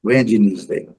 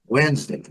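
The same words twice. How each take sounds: First: "Wednesday" as WED-ee-nes-day; over-literal three-syllable "Wednesday"; wrong pronunciation. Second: "Wednesday" as WENZ-day; correct pronunciation. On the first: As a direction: say "Wednesday" with D and E sounded. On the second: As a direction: say "Wednesday" with silent D and middle E. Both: Shown as a demonstration. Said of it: "não pronunciar o D e nem esse E".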